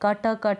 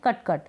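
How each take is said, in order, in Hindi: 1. हर अंतिम t ध्वनि के बाद एक छोटा स्वर आता है। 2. हर शब्द t ध्वनि पर तेज़ी से खत्म होता है। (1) "ट के साथ अ का उच्चारण नहीं है, कट कट नहीं बोल रहे" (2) "हम बोल रहे हैं कट कट"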